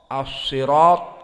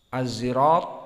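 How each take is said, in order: First: The word is said with an emphatic s sound. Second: The word is said with a z sound. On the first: "dan sad"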